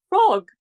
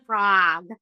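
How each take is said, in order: First: High, loud, clipped British "Frog."; British accent. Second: American accent. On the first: Retold or imitated. Child answering teasing kids in her British accent. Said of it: "And I'd say". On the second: Shown as a demonstration. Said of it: "practiced my American accent".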